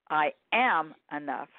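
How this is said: The stress falls on the word am.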